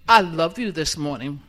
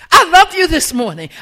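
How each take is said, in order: First: It is said flatly, without warmth. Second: It is said warmly, with feeling. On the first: The words are not sincerely meant. The speaker calls it wrong. "Does that sound like I love y'all? No" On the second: The words are sincerely meant. The speaker calls it right. "I think you can feel it because it's coming from the heart"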